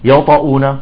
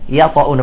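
First: The first ya sound is heavy and darkened. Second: The first ya sound is light and thin. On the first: The speaker calls it wrong. "بعضهم يقول يطاؤون" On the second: The speaker calls it right. "يجب عدم تفخيمها إذا جاء بعدها حرف مفخم"

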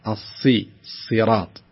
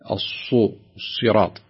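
First: The vowel is open with spread lips. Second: The vowel is rounded with pursed lips. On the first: The speaker calls it right. "الصحيح أن تقول الصراط" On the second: The speaker calls it wrong. "ولا تقول الصراط"

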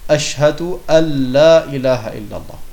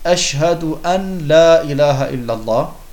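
First: The n merges into the following l sound. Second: The n is pronounced clearly before the l. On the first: The speaker calls it right. "man muss sagen" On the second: The speaker calls it wrong. "indem man das an ausspricht"

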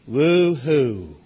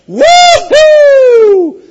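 First: It sounds flat and unenthusiastic. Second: It sounds loud and excited.

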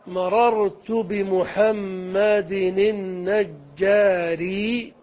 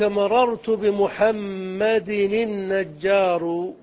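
First: The last word ends in an i vowel. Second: The last word ends in a u vowel. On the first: The adjective describes the noun within one sentence. "على الإتباع جملة واحدة" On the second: The adjective starts a new clarifying sentence. "على القطع"

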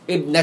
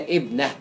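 First: The word ends with a t sound, joined on. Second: The word ends with an h sound at a stop. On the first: The word runs on into the following name. "ان نطقتها تاء تبقى مفتوحه" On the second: The speaker stops on the word at a pause. "وقفت عليها بقى تهاء"

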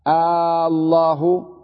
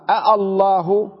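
First: One glottal stop, then a long vowel. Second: Two glottal stops, one after the other. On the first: The speaker calls it right. "تصبح همزة ال مدة" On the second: The speaker calls it wrong. "أصلها أالله أذن لكم لكن ثقيلة"

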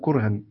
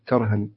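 First: The first vowel is a u sound. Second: The first vowel is an a sound. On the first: This is the reading of the second group of reciters. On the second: This is the reading of the first group of reciters.

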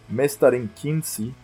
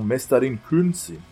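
First: The second word's first vowel is not 'oo'. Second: The second word's first vowel is 'oo'. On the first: The speaker calls it wrong. "minha pronúncia do finlandês, ela... Tá um lixo no caso" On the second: The speaker calls it right. "É, tipo isso"

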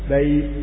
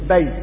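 First: The vowel glide is stretched for two beats. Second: The vowel glide is kept short and unstretched. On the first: "توصيها حركتين" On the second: "بياء ساكنة"

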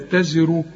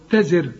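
First: The r is heavy and full, linked onward. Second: The r is light and thin at a stop. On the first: "لا دي مضمومة بقى مفخمة" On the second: "إذا وقفت الراء تزر"

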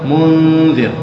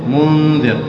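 No difference in how they are said.

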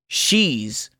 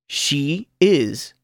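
First: The words merge into one short syllable. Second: Both words are said fully and separately. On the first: "luego contraído con el pronombre personal" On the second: "Primero oirá el verbo sin contracción"

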